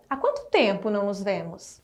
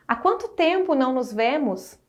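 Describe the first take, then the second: First: Há quanto tempo asked as a real question, lower and doubtful. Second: Há quanto tempo said as a surprised exclamation, falling on quanto. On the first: Teacher showing students the question mark, asking in doubt. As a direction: ask Há quanto tempo não nos vemos as a genuine question. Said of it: "uma frase interrogativa marcada pelo ponto de interrogação". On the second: Teacher showing students the exclamation mark, surprised exclaiming. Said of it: "uma ideia exclamativa marcada pelo ponto de exclamação". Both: Shown as a demonstration.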